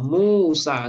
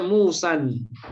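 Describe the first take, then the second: First: The word ends on a plain vowel. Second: The word ends with an added n sound. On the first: The speaker calls it right. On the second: The speaker calls it wrong. "nggak boleh dibaca Musan"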